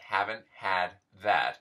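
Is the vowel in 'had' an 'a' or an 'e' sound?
a. The vowel in 'had' is an 'a' sound.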